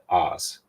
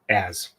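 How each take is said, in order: First: The vowel sounds like the one in 'Oz'. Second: The vowel sounds like the one in 'as'. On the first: The speaker calls it wrong. "I pronounce it more like as in Wizard of" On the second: The speaker calls it right. "Sorry. I know he has his as A Z"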